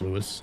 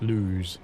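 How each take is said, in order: First: The name is said with two syllables. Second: The name is said with one syllable. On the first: "B A said it was Lewis" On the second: "I've heard other people call it Lose"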